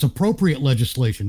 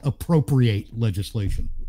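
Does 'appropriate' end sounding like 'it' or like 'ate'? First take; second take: it; ate. First: The last syllable of appropriate sounds like 'it'. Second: The last syllable of appropriate sounds like 'ate'. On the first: The legislation is suitable. The speaker calls it right. "it's appropriate legislation" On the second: The legislation takes things for itself. The speaker calls it wrong. "not appropriate legislation"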